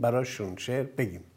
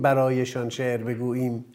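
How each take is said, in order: First: The words are in reduced, colloquial Tehrani form. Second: The words are in full, formal written form. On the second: "نگیم برایشان شعر بگوییم"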